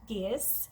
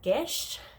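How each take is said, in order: First: The word ends with an s or z sound. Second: The word ends with a sh sound. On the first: The speaker calls it wrong. "which is not how you pronounce that" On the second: The speaker calls it right. "I think it's actually something like Gish"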